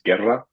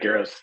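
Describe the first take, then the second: First: The name is said with a Spanish, rolled R. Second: The name is said with an English, unrolled R. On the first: "if you want to hear the Spanish accent" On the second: "Guerra's fine"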